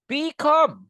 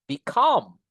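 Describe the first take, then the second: First: "become" high and loud, "be" pushed up as hard as "come"; wrong stress. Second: "become" with a light "be" and a punched, falling "come"; stress on second syllable. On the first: Teacher showing the class a mistake, "become" pitched high from "be". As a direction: overdo "become" from a high, forceful first syllable. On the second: Teacher correcting the class, stress on "come" in "become". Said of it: "di suku kata yang kedua". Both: Shown as a demonstration.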